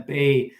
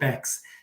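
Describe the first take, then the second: First: It ends in a vowel, with no x sound. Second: It ends with a clear x sound. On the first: This is how the Swiss town is said. The speaker calls it wrong. "I always say Bay. Sorry" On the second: This is how its owner says the name. The speaker calls it right. "she pronounces it Bex"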